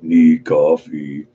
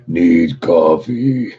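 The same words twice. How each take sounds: First: Slow, drawn-out zombie groan; zombie moan. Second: Slow groaning zombie voice; zombie moan. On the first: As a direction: moan it out like the undead. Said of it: "It's like". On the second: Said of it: "In my best zombie voice, bro". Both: Retold or imitated.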